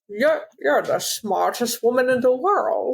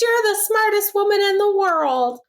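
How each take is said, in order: First: It is said in a Scottish-accented voice. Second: It is said in a feminine-sounding voice. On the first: "He only talks like Sean Connery now" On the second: "Why is Mel Gibson sound like a woman?"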